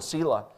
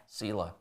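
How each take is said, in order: First: Said in the usual way. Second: A hushed, falling Selah; quiet. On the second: Shown as a demonstration. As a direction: let Selah fade almost to nothing.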